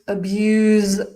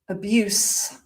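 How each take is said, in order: First: The final consonant is a z sound. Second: The final consonant is an s sound. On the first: It is a verb. "The z pronunciation, you've got a verb" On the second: It is a noun. "when we've got the s sound, we've got an adjective or a noun"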